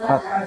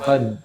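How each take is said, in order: First: The word ends with a released breathy h. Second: The word ends without an audible breathy h. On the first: The speaker calls it right. "tapi fath" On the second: The speaker calls it wrong. "Bukan fad"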